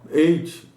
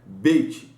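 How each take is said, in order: First: It is said without closing the lips. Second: It is said with the lips closing. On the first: The speaker calls it wrong. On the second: The speaker calls it right.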